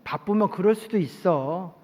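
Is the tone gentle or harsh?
gentle. It is said in a gentle, forgiving tone.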